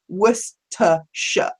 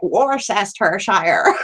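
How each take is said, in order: First: It is said the British way, short and plain. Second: It is said the American way, sounding elaborate. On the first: The speaker calls it right. "it is literally just Worcestershire" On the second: The speaker calls it wrong. "American friends ... they're like Worcestershire. And it sounds like something from Lord of the Rings"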